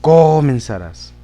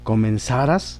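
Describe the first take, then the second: First: The stress is on the first syllable, co. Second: The stress is on the last syllable, ras. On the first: The speaker calls it wrong. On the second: The speaker calls it right.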